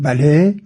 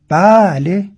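First: It is said in a dismissive, negating tone. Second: It is said in a fully affirming tone. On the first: The speaker actually means no. "باز همین بله رو ما میتونیم نخیر کنیم، بگیم بله یعنی شد نخیر" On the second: The speaker fully agrees. "وقتی میخوام کاملا تایید کنم با لحنم میگم بله"

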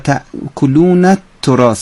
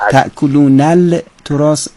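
First: The final n runs straight into the t. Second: An l sound is pronounced before the t. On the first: The speaker calls it right. "یعنی نون تأکلون به ته تراس میچسبه" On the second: The speaker calls it wrong. "تأکلون التراس اشتباه هستش"

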